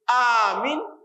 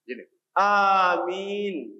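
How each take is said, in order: First: Only the first vowel is long. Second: Both vowels are long. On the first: Grant safety. The speaker calls it wrong. "kalau alifnya di ahkamul alif" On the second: Answer the prayer. The speaker calls it right. "caranya yang betul adalah amin"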